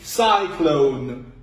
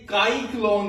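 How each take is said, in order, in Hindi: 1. शब्द एक नरम s की आवाज़ से शुरू होता है। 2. शब्द एक कठोर k की आवाज़ से शुरू होता है। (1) "सीन की आवाज आई है, तो ये है साइक्लोन" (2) "ये काई क्लोन नहीं बना, काफ की आवाज नहीं आई"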